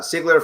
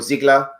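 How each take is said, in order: First: The name begins with an S sound. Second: The name begins with a Z sound. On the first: The speaker calls it right. "That's with an S" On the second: The speaker calls it wrong. "Sometimes I pronounce it like a Z"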